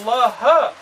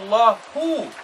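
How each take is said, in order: First: The word ends with a short a vowel. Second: The word ends with a short u vowel. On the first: The scholars fear God. The speaker calls it right. "now the ulama are the ones that fear Allah" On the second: God fears the scholars. The speaker calls it wrong. "you change the meaning to say that Allah, نعوذ billah, fears the ulama"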